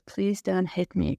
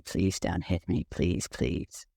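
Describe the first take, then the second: First: A touch of pleading, near normal voice; understated begging, first time through; mild retold plea. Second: Lower, softer, fading into a whisper; begging quietly through imagined tears; retold crying plea. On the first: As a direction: plead lightly, not yet broken. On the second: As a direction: let the plea crumble into a tearful hush. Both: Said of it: "just starts to cry and says".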